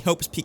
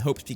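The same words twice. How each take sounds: First: Both P sounds are sharply over-enunciated. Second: The P of 'Peak' is slurred and unclear. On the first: "really enunciate to the point where it sounds unnatural" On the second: "I got the first P and then messed up the second one"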